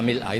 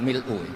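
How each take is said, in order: First: The word ends with an a vowel. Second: The word ends with a u vowel. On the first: This is the reading in some chains of transmission. "di beberapa sanad dibaca" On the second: This is the common reading in Java. "Kebanyakan ke Jawa memang baca pakai rofaknya"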